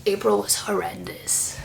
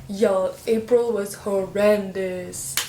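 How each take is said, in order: First: Breathy whispered confession. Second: April drawn out slowly and stressed; slow emphatic. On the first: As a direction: whisper it as if it were a secret. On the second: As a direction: spell it out slowly to the audience. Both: Shown as a demonstration.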